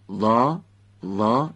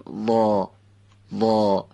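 First: وا pronounced light, from the front of the mouth; front-of-mouth vowel. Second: وا drawn out, sounded from the back of the mouth; heavy back vowel. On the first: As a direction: say وا thin and forward in the mouth. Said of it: "این یعنی از جلوی دهان گفتن". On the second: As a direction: say وا thick and dark, pulled back in the mouth. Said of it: "صداش هم که یه مقداری باید بدیم عقب دهان". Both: Shown as a demonstration.

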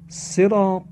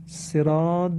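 First: صراط ending on a heavy emphatic T; higher-pitched, firm صراط with a full ط; correct emphatic ط. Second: صراط ending in a voiced D, "siraad"; ط turned into dal. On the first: Teacher gives the Arabic word for "road", صراط with emphatic ط. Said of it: "با تاء مؤلفه". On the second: Teacher shows the changed word, صراط ending on a D. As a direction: say صراط with a plain D in place of ط. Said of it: "یعنی با دال شد". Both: Shown as a demonstration.

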